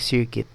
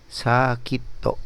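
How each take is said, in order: First: It is said with an English pronunciation. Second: It is said with a Japanese pronunciation. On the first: "instead of circuit" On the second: "in Japanese, instead of circuit, you say sakito"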